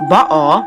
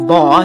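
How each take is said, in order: First: The name is said with a Hebrew pronunciation. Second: The name is said with an American pronunciation. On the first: "that's how you actually pronounce it from Hebrew" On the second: "is how we Americans pronounce it"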